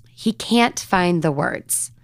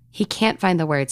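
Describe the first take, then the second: First: "can't" stretched out very slowly; slow and stressed. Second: Said in the usual way. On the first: Shown as a demonstration. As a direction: linger on every word, very slow.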